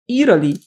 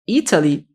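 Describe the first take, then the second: First: The T sounds like a quick R. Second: The T is pronounced as a clear T.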